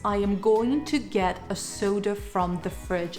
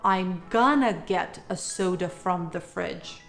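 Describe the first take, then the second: First: 'Going to' is said fully, every word clear. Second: 'Going to' is reduced to 'gonna'. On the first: "Take the sentence"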